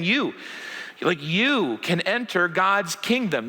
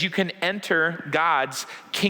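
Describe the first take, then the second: First: "You" leaned on, slow and deliberate; personal invitation. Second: Said in the usual way. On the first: Retold or imitated. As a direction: pause after "You", then press "you can enter" slowly. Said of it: "he's looking at you and saying". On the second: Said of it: "Jesus says".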